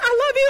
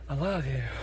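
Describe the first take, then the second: First: It is said at a very high pitch. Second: It is said at a normal pitch.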